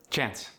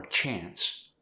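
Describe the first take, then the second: First: South African "chance" with a relaxed A; South African accent. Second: Said in the usual way. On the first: Shown as a demonstration. Teaching the South African long A, accented "chance". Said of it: "more of a relaxed A sound". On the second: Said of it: "For the long A sound".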